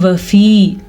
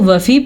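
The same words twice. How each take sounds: First: The final vowel is drawn out long. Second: The final vowel is cut short. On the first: The speaker calls it right. "या मद्दा को खींच के पढ़ेंगे" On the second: The speaker calls it wrong. "अगर कोई इसको वफ़ी पढ़ेगा तो वो गलत पढ़ेगा"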